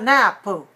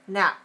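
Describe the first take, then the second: First: An extra vowel is added after the p. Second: The word ends on a closed p sound. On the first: The speaker calls it wrong. "you want to put another vowel" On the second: The speaker calls it right. "we close it off, but we don't need to release it into another vowel"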